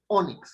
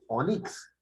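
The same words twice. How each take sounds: First: The stress is on the first syllable. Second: The stress is on the last syllable. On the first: The speaker calls it right. "la fuerza de la voz predominante está en o" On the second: The speaker calls it wrong. "Yo no digo onix"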